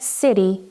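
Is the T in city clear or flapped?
flapped. The T is a quick flap, like D. "which sounds more like a D sound, but this is actually the flap T"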